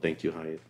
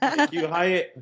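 First: It is said at normal volume. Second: It is said louder.

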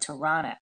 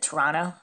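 First: Toronto is pronounced in a non-Canadian way. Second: Toronto is pronounced the way Canadians say it.

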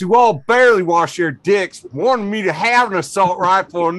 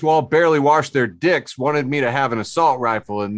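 First: It is read in a put-on redneck accent. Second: It is read in a plain, ordinary voice. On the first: The speaker calls it right. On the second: The speaker calls it wrong.

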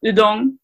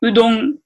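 First: The u is said with lips spread sideways. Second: The u is said with rounded, protruded lips.

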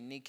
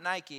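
First: It is said like the Greek word. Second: It is said like the sports brand name. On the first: The speaker calls it right. "it's actually Nike is how you say it" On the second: The speaker calls it wrong. "it's not Nike"

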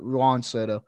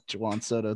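First: The first name has one syllable, like 'hwahn'. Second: The first name has two syllables, like 'joo-wahn'. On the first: "It's just Juan" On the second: "Juwan Soto. That would actually be a sick name"

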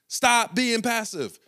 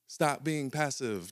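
First: The phrase is shouted loudly with high energy. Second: The phrase is said quietly with low energy. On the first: The speaker truly means it. The speaker calls it right. "Coach was yelling at the top of his lungs" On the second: The speaker does not really mean it. The speaker calls it wrong. "just like that"

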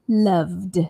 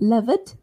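First: The final sound is a clear d sound. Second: The final sound is not a d sound. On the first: The speaker calls it right. "make sure you say the D sound at the end" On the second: The speaker calls it wrong. "So not loved"

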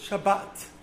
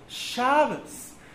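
First: The stress is on the last syllable. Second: The stress is on the first syllable. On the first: "with the emphasis on the end of the word"

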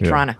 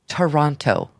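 First: The second T is dropped entirely. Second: The second T is clearly pronounced. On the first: The speaker is from the area. The speaker calls it right. "I say Toronto" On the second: The speaker is not from the area. The speaker calls it wrong. "Nobody says Toronto that are even remotely from the area"

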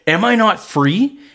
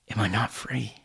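First: It sounds indignant and defensive. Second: It sounds sad and brokenhearted.

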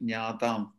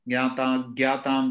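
First: The word has a Sanskrit-style pronunciation. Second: The word has a Hindi-style pronunciation. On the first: The speaker calls it right. "I want all of you at least to get all your pronunciations right" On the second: The speaker calls it wrong. "These are all typically Hindi-based usages"

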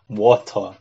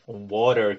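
First: It is said in a British accent. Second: It is said in an American accent.

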